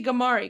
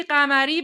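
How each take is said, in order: First: گماری starting on a hard g; anglicised surname گماری, English g and r; English pronunciation. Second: قمری starting on a throaty q; Persian pronunciation. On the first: Contrasting both languages, گماری with English hard g. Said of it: "به زبون انگلیسی گماری". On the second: Contrasting both languages, قمری with Persian q. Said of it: "به زبون فارسی قمری". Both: Shown as a demonstration.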